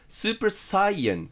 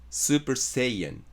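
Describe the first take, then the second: First: The second word begins with a 'sigh' sound. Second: The second word begins with a 'say' sound. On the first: The speaker calls it wrong. "スーパーサイエンじゃなくて" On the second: The speaker calls it right. "セイエンです"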